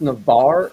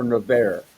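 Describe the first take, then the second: First: Navarre said nuh-VAR; pronounced "Navarre". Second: Navarre said nuh-VAIR; alternative pronunciation. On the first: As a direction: say Navarre with an "ar" ending, as in car. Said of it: "is it pronounced Navarre or". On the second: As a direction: say Navarre with an "air" ending, as in bear. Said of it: "is it pronounced Navarre or Navarre". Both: Shown as a demonstration.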